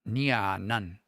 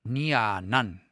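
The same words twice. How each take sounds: The two takes are said the same way.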